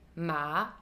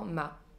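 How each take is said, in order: First: The pitch dips low, then rises again. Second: The pitch stays level with no change. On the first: "je vais d'abord dans le grave et ensuite je remonte plus vers les aigus" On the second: "sans aucun ton"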